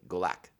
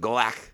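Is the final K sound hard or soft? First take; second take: soft; hard. First: The final K is soft, not harsh. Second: The final K is hard and harsh. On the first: The speaker calls it right. "and it's not. It's like Galak" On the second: The speaker calls it wrong. "I said it initially with like that hard K, like it was kind of Klingon-y"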